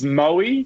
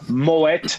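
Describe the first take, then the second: First: The final T is dropped and silent. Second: The final T is clearly pronounced. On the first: The speaker calls it wrong. "drop the T and make it silent" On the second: The speaker calls it right. "Dutch name where they pronounce the T"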